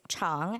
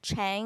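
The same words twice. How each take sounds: First: It is said with a Chinese-style vowel. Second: It is said with an English-style vowel. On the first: The speaker calls it right. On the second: The speaker calls it wrong.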